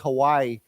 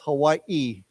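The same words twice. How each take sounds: First: The final i is not said separately. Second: The final i is said as a separate syllable. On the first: This is the usual mainland American way. The speaker calls it wrong. "Many of my American friends who are not from Hawaii, they say Hawaii" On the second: This is the way people in Hawaii say it. The speaker calls it right. "they pronounce the second I with a, so it's Hawaii"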